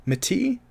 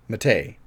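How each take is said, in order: First: Mate? said as "mat-ee", rising high like a question; testing the name Mate? as "mat-ee"; unsure pronunciation. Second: Mate. said as "mah-tay", falling low and sure; decide on Mate. as "mah-tay"; settled pronunciation. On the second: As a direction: land Mate. as "mah-tay" with a firm drop. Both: Shown as a demonstration. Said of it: "I think it's Mate".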